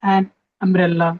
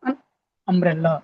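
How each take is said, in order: First: The article is said as a full 'an'. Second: The article is said as a short 'un'. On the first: The speaker calls it wrong. "దీన్ని యాన్ అంటాం" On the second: The speaker calls it right. "అలా కాకుండా అన్, చిన్నగా"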